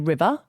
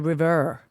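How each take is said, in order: First: The r sounds are dropped, Australian style. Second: The final r is strongly pronounced, American style. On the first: "I say river" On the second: "in American you got to go river"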